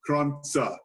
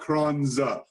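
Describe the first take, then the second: First: The middle consonant is a sharp ts sound. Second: The middle consonant is a buzzing z sound. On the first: The speaker calls it right. "make sure it's more of a T S" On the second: The speaker calls it wrong. "not Kranza"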